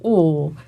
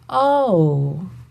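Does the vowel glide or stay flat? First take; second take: flat; glides. First: The vowel stays flat without gliding. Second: The vowel is open and glides. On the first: "whereas we just go" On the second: "more open and have like a little glidey sound"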